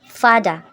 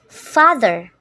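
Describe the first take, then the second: First: The middle consonant is a d sound. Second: The middle consonant is a voiced th sound.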